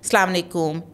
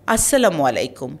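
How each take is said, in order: First: The opening syllable is dropped and the greeting clipped. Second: Every syllable of the greeting is pronounced clearly. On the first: The speaker calls it wrong. "সালাম আলাইকুম এরকম? সালাম আলাইকুম বলে কি কোনো শব্দ আছে?" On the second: The speaker calls it right. "স্পষ্ট করে বলুন"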